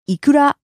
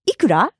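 First: The pitch does not rise at the end. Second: The pitch rises at the end. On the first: It names salmon eggs. "So salmon egg is" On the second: It asks how much something costs. "Notice the rising intonation"

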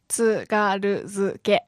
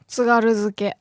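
First: The word is said slowly, syllable by syllable. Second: The word is said smoothly at normal speed. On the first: "Can you break it down?" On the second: "introduce the vocabulary"

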